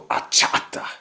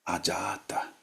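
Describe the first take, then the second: First: The middle consonant is a hard ch sound. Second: The middle consonant is a soft j sound. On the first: The speaker calls it wrong. "then they go achata" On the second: The speaker calls it right. "This is very soft. ... not achata"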